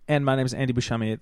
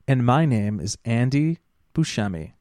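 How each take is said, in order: First: The sentence is spoken quickly. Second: The sentence is spoken slowly. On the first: "I say that really fast" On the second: "Let me slow that down"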